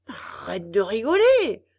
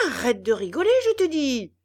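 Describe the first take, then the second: First: Loud, sharp scolding shout. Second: Loud, higher threatening yell; menacing yell. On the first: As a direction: scold the laughing puppet. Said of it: "gronda Geppetto". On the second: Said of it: "hurla Geppetto d'une voix menaçante". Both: A narrator's reading.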